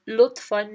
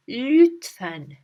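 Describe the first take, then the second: First: "lütfen" mispronounced as "loot-fahn"; "lütfen" without the rounded ü; wrong vowels. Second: "lütfen" with fronted, rounded ü; "lütfen" with a clear ü and open e; correct ü. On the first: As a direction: say "lütfen" with plain oo and open ah. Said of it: "No, it's not that". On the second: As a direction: say "lütfen" as "lewt-fen", carefully. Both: Shown as a demonstration.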